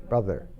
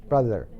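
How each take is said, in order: The two takes are said the same way.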